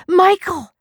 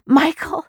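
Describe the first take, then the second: First: Even higher, louder falling wail of the name; anguished falling scream. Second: Piercing high scream of a name, loud; desperate rising scream. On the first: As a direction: wail the name as hope breaks. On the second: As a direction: shriek his name in terror. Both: A narrator's reading. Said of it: "She dropped it and screamed".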